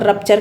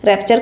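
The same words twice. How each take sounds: First: रप्चर with a short "uh" in the first syllable; clear vowel contrast. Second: रैप्चर with an open "e" as in "rep-cher"; clear vowel contrast. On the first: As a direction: say रप्चर as "RUP-cher", central vowel first. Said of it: "ये रप्चर है, आर U P". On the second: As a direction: say रैप्चर as "RAP-cher", front vowel first. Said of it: "sorry, र-, रैप्चर है ये". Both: Shown as a demonstration.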